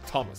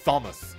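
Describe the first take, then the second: First: The name begins with a plain T sound. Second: The name begins with a th sound. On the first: The speaker calls it right. "It's like Thomas" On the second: The speaker calls it wrong. "I pronounced Thomas as Thomas, like th"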